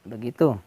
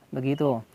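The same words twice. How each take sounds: No difference in how they are said.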